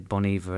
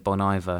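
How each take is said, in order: First: The name is said with a French pronunciation. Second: The name is said with an English pronunciation. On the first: The speaker knows French. "the people that speak French say Bon Iver" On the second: The speaker does not know French. "the ones that don't say Bon Iver"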